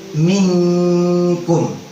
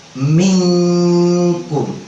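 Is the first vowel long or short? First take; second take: short; short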